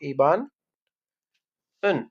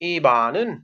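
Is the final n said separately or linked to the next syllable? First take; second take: separate; linked. First: The n ends the name; the particle stands apart. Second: The n moves over to start the particle syllable.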